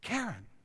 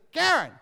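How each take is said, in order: First: The name is said more quietly. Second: The name is yelled loudly. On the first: "I didn't say it like that either" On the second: "I didn't yell"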